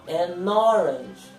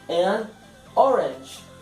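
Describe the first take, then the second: First: The two words run together as one. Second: The two words are said separately.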